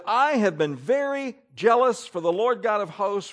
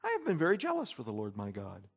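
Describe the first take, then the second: First: Worked-up reading, pitched high; emotional. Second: Soft, low, calm recital. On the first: Acted. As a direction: read it out with fervent feeling. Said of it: "Do those words sound emotional?". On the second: Shown as a demonstration. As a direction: say it quietly, with the feeling taken out. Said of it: "he's not just calmly saying".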